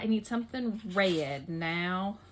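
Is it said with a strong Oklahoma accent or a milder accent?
strong Oklahoma. It is said with a strong Oklahoma accent.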